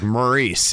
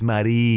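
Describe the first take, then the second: First: The name is said with an English accent. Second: The name is said with a French accent. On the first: The speaker calls it wrong. "I would be like" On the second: The speaker calls it right. "she'd be like, it's Maryse"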